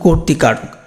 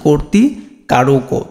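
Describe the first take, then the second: First: The word ends on a bare final consonant. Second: The word ends with an added final o vowel. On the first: The speaker calls it right. "এটার উচ্চারণ কিন্তু কর্তৃকারক" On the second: The speaker calls it wrong. "যদি হসন্ত use না করো তাহলে উচ্চারণ হতো"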